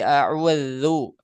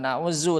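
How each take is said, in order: First: The middle consonant is a voiced th sound. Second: The middle consonant is a buzzing z sound. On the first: The speaker calls it right. "bukan a'uzu tapi a'udzu" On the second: The speaker calls it wrong. "A'uzu pakai za"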